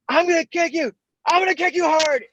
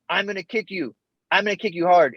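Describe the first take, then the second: First: It is said intensely, with real conviction. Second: It is said half-heartedly, without conviction.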